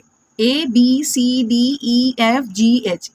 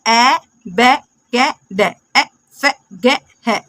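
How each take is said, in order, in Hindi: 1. हर अक्षर को उसके पूरे नाम से बोला जाता है। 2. हर अक्षर को उसकी छोटी ध्वनि से बोला जाता है। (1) "बिल्कुल गलत पढ़ते हैं" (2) "कैसे रीडिंग करते हैं?"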